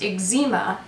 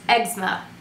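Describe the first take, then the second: First: It is said the Canadian way. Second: It is said the Australian way.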